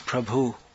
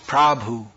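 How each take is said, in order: First: The first vowel is short. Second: The first vowel is long. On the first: The speaker calls it right. "but in India it's" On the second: The speaker calls it wrong. "Here in Croatia it's"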